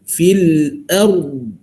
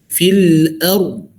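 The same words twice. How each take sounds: No difference in how they are said.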